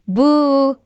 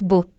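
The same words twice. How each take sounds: First: The vowel is long and stretched. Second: The vowel is short and quick. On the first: The speaker calls it right. "It's boo" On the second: The speaker calls it wrong. "not boo"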